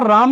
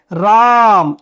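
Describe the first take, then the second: First: Said in the usual way. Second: राम with the आ held long for three beats; long sung-out राम as in Sanskrit; drawn-out pluta vowel. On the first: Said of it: "तो यहां पर राम नहीं बोलना है". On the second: Shown as a demonstration. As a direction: stretch the vowel of राम to three counts, louder. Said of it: "इसको आपको तीन मात्रा तक खींचना है".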